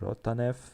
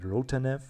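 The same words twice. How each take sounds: First: The name is pronounced in a Russian way. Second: The name is pronounced in a plain English way.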